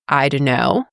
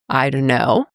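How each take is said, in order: First: The words are reduced and run together. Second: The words are reduced and run together.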